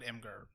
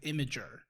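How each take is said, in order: First: The name is said with two syllables. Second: The name is said with three syllables. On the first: This is how the speaker and a friend say it. "Brandon and I always called it Imgur" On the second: This is how another person says it. "Jordan calls it Imager"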